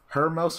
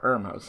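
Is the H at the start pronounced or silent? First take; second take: pronounced; silent. First: The word begins with a spoken H sound. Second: The word begins without any H sound.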